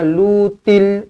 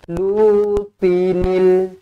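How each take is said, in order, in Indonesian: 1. Diucapkan tanpa suku kata 'n' tambahan. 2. Diucapkan dengan suku kata 'n' tambahan. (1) "jangan lutil ... Salah" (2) "itu bunyi yang betul"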